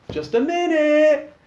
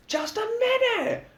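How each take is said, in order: First: High, loud drawn-out call; shouting. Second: Calling back. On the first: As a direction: shout it to the door. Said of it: "he shouts out". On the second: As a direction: sing it out lazily. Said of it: "Lux calls back". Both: A narrator's reading.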